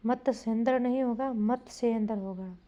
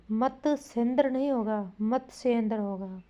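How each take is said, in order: Both takes have the same delivery.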